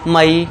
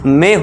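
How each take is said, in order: First: The vowel is a two-part 'a-ee' sound. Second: The vowel is a single 'ay' sound. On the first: The speaker calls it wrong. "इसे सब क्या पढ़ते हैं, मई मई पढ़ते हैं" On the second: The speaker calls it right. "Correct उच्चारण क्या है दोस्तों, मे होता है"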